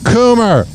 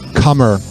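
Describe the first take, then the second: First: The first vowel sounds like the one in 'coo'. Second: The first vowel sounds like the one in 'come'. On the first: The speaker calls it right. "His last name is Coomer" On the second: The speaker calls it wrong. "I said it wrong"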